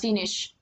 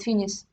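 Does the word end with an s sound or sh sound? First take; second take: sh; s. First: The word ends with a full sh sound. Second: The final sh is dropped or weakened to s. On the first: "she didn't pronounce finish" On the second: "She said finis"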